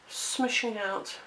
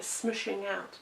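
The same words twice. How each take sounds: First: Smushing out stretched slowly, savoring the word smushing; drawn-out word. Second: Said in the usual way. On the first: Shown as a demonstration. Crafter savors her made-up word for the glue, slow drawn smushing out. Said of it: "Yes, that's a proper English word". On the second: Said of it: "that's a proper English word".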